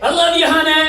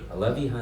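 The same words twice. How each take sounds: First: It is yelled loudly with power. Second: It is said quietly and intimately.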